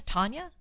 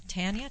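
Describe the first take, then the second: First: Tanya said TAHN-yuh, questioning; Tanya sounded like Tonya, asked as a question; first A as "ah". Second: Tanya said TAN-yuh, questioning; Tanya with the A of "tan", asked as a question; first A as in "tan". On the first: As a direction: try "Tanya" with an open ah, as in "father". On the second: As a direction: try "Tanya" with a flat short a, as in "cat". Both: Shown as a demonstration. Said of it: "I don't know if it's Tanya or Tanya".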